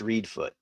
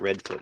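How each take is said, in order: First: The first syllable has a long 'ee' vowel. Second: The first syllable has a short 'e' vowel. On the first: The speaker calls it right. "it's Reedfoot" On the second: The speaker calls it wrong. "It's not Redfoot"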